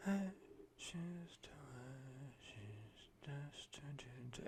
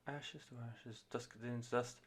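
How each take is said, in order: First: Whispered like backing singers, ASMR-style; breathy whisper. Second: Very soft, gentle, hushed line; gentle female vocal. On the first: Reviewer imitating male backing vocals in a whisper. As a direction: hush it right down to a whisper. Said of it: "fucking A S M R levels there". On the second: Reviewer imitating the gentle lead singer, soft and hushed. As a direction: breathe it out tenderly like the lead singer. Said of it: "vocalist in it is obviously being, like, very gentle". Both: Retold or imitated.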